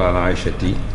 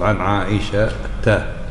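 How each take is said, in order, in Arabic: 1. ينتهي الاسم بالصوت 'i'. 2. ينتهي الاسم بالصوت 'a'. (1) "ما تقول" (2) "تقول"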